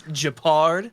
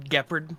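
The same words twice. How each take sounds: First: "Japard" said juh-PARD, drawn out and louder; correct name pronunciation. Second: "Gepard" said GEP-erd, stressed up front; Tectone's pronunciation. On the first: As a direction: stretch "Japard", stressing the last syllable. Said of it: "is it actually Japard". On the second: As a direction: say "Gepard" with the first syllable stressed. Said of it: "Tectone likes to call it". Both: Shown as a demonstration.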